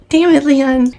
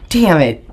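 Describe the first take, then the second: First: Much higher, exasperated Damn it, Leon; exasperated curse. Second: Said in the usual way. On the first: Real, not acted. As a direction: throw the name up high in disbelief. Cursing stepfather twice.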